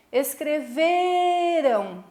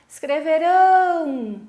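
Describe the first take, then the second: First: "Escreveram" called out very slowly, VE pulled long and high; long stress on VE. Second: "Escreverão" called out loud and high, long final RÃO; shouted stress on RÃO. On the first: Teacher calling to a classmate across the river, VE stretched in "Escreveram". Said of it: "Tá vendo que eu puxo no V". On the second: Teacher shouting to students across the river, RÃO stretched in "Escreverão". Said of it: "Como é que eu vou gritar?". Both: Shown as a demonstration.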